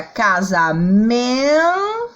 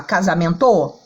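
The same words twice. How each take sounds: First: Casamento with "men" sung out very long and rising, then a short "to"; stress on MEN. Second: Casamento with a wrongly stressed last syllable, "to", lower in pitch; wrong final stress. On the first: Teacher showing students the real pronunciation, casamento with long stressed "men". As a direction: stretch the syllable "men" in casamento slowly, then drop "to". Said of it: "como que a gente pronuncia".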